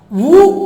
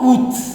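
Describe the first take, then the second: First: The word ends in a vowel, with no t. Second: The word ends with a clear t sound. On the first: "Sometimes it is correct to pronounce it as woo" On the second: "That is also a correct pronunciation"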